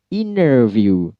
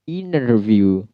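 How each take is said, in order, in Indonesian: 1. Aksen American: T hilang dan R jelas. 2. Aksen American: T hilang dan R jelas.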